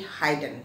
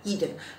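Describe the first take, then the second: First: The first vowel sounds long, like in 'hide'. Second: The first vowel is short and thin. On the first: The speaker calls it wrong. "jadi hidden" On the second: The speaker calls it right. "tapi sebetulnya adalah hidden"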